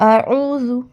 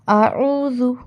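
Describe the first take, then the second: No difference in how they are said.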